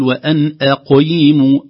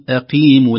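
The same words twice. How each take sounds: First: "أقيموا" with q overthickened, almost "qoy"; forced heavy qāf. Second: "أقيموا" smooth, with a clean long ee after q; lightly heavy qāf. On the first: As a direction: overdo the heaviness of q in "أقيموا". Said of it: "لا نتكلف التفخيم". («أقيموا» بتفخيم متكلف) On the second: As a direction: let "أقيموا" flow, q not forced. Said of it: "إذا كانت مكسورة نقول أقيموا". («أقيموا» بلا تكلف) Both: Shown as a demonstration.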